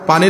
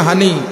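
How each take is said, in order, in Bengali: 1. শব্দটি 'p' ধ্বনি দিয়ে শুরু হয়। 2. শব্দটি 'h' ধ্বনি দিয়ে শুরু হয়।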